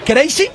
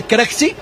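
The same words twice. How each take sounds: First: "Crazy" said like the English word; said as it sounds. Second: "Crazy" read as KREK-see, with a hard k inside; said as spelt. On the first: Commentator explains the defender's name, said as it sounds. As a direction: pronounce "Crazy" as KRAY-see. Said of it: "suena como locos". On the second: Commentator shows how the defender's name is written, said as spelt. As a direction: pronounce "Crazy" letter by letter as written in Spanish. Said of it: "se escribe". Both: Shown as a demonstration.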